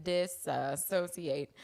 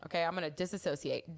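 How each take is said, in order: First: "Disassociate" stretched out very slowly; drawn-out. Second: Said in the usual way. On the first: Shown as a demonstration.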